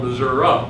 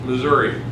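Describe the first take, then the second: First: It uses the western, rural pronunciation of the name. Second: It uses the eastern, metropolitan pronunciation of the name. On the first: The speaker lives in the rural west of the state. "If you live in the western part of the state, in most rural areas" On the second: The speaker lives in the city or the east of the state. "if you are in the metropolitan area or on the east side of the state"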